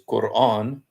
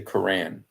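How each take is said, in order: First: It is pronounced with Arabic sounds. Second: It is pronounced with an English accent. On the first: "The way we say it in Arabic is Quran" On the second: "when I speak English, I usually say Quran"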